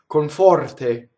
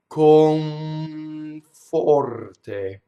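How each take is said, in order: First: It is said quickly, with the sounds run together. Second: It is said slowly, with the sounds held long. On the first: The speaker calls it right. "when I say it fast" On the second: The speaker calls it wrong. "I do it really in slow motion"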